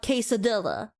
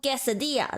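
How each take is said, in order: First: The word is said with an English accent. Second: The word is said with a Spanish accent. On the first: It stands for the inauthentic food. The speaker calls it wrong. "not quesadilla" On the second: It stands for the authentic food. The speaker calls it right.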